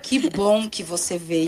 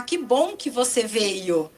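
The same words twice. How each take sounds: First: Low, slow, unimpressed greeting; unenthusiastic welcome. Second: Slow, drawn-out friendly welcome; pleased welcome. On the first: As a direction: say the welcome without any delight. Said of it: "Dependendo como sai isso". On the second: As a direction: greet someone as if glad they came. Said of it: "se eu falar". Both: Shown as a demonstration.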